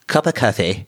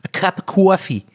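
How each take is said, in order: First: It is said in a posh accent. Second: It is said in a Jersey accent.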